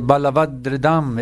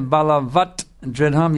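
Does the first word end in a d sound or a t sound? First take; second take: d sound; t sound. First: The first word ends with a d sound. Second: The first word ends with a t sound. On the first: The speaker calls it right. "you say balavat dridham. It flows" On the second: The speaker calls it wrong. "instead of balavat dridham"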